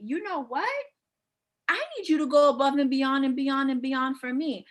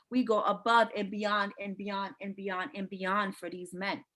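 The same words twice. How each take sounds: First: Raised pitch, then an insistent run of "beyond"; acted demand. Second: "beyond" repeated on one level, unbroken tone; droning repetition. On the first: Woman telling her man to go above and beyond, insistent. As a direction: put your foot down, piling it on. Acting out holding a man accountable. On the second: Real, not acted. Coach telling ladies all they do for men, droning. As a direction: chain "and beyond and beyond" evenly, running on. Women's endless effort, droned repetition.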